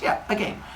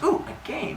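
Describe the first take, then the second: First: Softer, confirming mock reply; Zeus. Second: High, softer mock-girl squeak; rising put-on "ooh" of delight; excited girl. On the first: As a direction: answer the girl as a scheming Zeus, hushed. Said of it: "He goes". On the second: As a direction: imitate a girl thrilled by the offer. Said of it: "And she goes".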